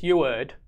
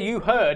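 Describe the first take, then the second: First: The h at the start of heard is dropped. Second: The h at the start of heard is pronounced. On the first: "Just throw that H out of there" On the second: "instead of"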